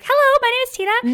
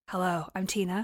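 First: It is said in a high, squeaky Smurf voice. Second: It is said in a deeper, lower voice.

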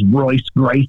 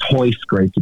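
First: The first name begins with an R sound. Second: The first name begins with an H sound. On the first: The speaker calls it wrong. "that's not even how you pronounce it" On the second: The speaker calls it right. "It's Hoist Gracie"

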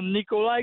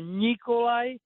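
First: The n sounds hard, not palatalized. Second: The n sounds soft, like Spanish ñ. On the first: The speaker calls it wrong. "It's not" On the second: The speaker calls it right. "It's a Nikolai"

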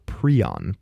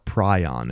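First: The word is said in a non-British pronunciation. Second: The word is said in a British pronunciation.

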